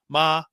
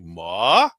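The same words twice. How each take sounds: First: The pitch stays high and level. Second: The pitch rises through the word. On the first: It means mother. "high pitch" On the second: It means hemp. "that means hemp"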